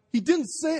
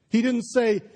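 First: "didn't" lifted high and punched; stress on didn't. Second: Said in the usual way. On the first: Shown as a demonstration. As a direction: lean hard on "didn't", not "he".

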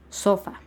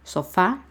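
First: "sofa" stressed on SO, falling away; stress on first syllable. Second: "Sofá" stressed on FÁ, rising at the end; stress on last syllable. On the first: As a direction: hit the o of "sofa", let fa drop. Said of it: "si acentuara yo la S y la O". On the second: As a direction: land on the final á of "Sofá". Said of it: "sí distinguen la diferencia". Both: Shown as a demonstration.

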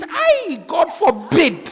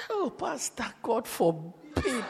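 First: High yelped "Ay", then drawn-out refusal; acted horrified refusal. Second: Soft, drawn-out, confidential protest; hushed mock refusal. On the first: Brother spots the faded beauty, mock horrified refusal. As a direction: recoil in mock horror, stretching the words. Acts brother rejecting the girl. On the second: Brother turns down the pastor's match, hushed mock horror.

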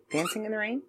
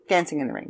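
First: Dancing in the Rain asked softly with a questioning rise; quietly asking herself whether the title is Rain; unsure question. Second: Said in the usual way. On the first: Real, not acted. Checking the title aloud.

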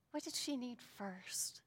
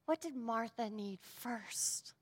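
First: Whispered repeat; hushed whisper. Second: Said in the usual way. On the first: Acted. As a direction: breathe the question again in a whisper.

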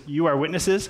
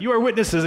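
First: Said in the usual way. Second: Higher and louder, rallying like a war leader; battle cry. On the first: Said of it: "'cause he says". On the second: Pretend. Boaz as an epic battle leader rallying the crowd, hammed-up shout. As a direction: roar it like a commander before battle. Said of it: "like, a Lord of the Rings battle".

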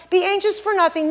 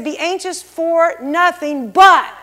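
First: Higher-pitched, tossed-off version of the verse; breezy brush-off. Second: Drawn-out words building to a loud BUT; slow down and land hard on BUT; emphatic correction. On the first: The misquote of God's word, breezy brush-off. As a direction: rattle the verse off lightly, without weight. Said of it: "He didn't say". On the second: Preacher correcting the misquote, slow emphasis with a loud BUT. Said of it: "No, he said". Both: Retold or imitated.

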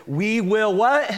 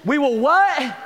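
First: Rising "what?" for the crowd; rhetorical prompt. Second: Higher, louder "what?" pressing the crowd; louder prompt. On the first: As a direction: ask the crowd to finish it. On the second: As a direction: push them harder for the answer. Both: Shown as a demonstration. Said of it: "And this is it".

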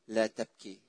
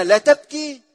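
First: لا تبكي dropped soft and low; hushed tender quote. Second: لا تبكي thrown out loud and high; loud rhetorical quote. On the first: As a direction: breathe the words gently like a comfort. Jesus's words, hushed. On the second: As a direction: fling the words out as an absurd demand. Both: Acted.

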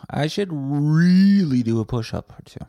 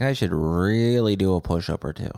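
First: REALLY stretched long and high; mock-inspired emphasis. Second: Said in the usual way. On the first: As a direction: swell up on "really", then fall away. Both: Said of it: "I'm like".

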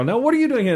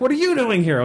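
First: High retort, stress on are; mock retort. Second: High mock indignant question; mock challenge. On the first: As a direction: throw it right back, higher. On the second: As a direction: toss the question back indignantly. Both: Orc and players exchange challenge.

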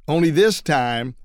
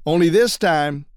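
No difference in how they are said.

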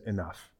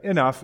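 First: Low, soft and restrained; near whisper. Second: Louder, sharp cut-off; forceful, not whispered. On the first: Samuel cutting Saul off, nearly whispering. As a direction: say it under your voice. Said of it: "if he says it like a whisper". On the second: Samuel silencing Saul, firm and louder. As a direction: stop him with a firm burst. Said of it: "I don't know if he says it like a whisper". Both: Acted.

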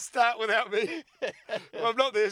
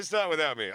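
First: Slow, loud, high mocking echo; slow, loud scoff, high in the voice; mocking repeat. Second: Said in the usual way. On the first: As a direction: drag out the line and ham it up.

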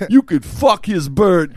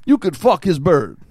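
First: Put-on slow, loud, high old man, every word drawn out; old guy voice. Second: Put-on high, loud old official delivering a punchline; old guy voice. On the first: Fake IRS agent repeating it to the stunned client, slow old guy. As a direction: imitate an old official repeating it deliberately. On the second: Fake IRS agent giving the other option, old guy voice. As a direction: imitate an old man offering an option in earnest. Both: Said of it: "He does this old guy voice".

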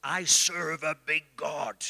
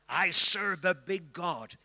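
First: Put-on slow, deep African accent, big and weighty; slow heavy African preacher voice. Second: Slow, weighty echo in a hint of African accent; slow echo of the apostle's accent; lightly held African accent. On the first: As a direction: boom it like an old African apostle. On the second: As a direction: repeat it with a touch of his African voice. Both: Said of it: "he would say in his deep African voice".

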